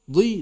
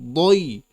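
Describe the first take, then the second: First: The consonant is light and thin. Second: The consonant is heavy and thick. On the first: The speaker calls it wrong. "Tidak boleh dibaca tipis" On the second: The speaker calls it right. "Tetap tebal"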